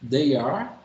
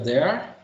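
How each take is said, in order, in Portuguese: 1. Duas palavras completas são ditas separadamente. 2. Ela é unida em uma só sílaba, como em there.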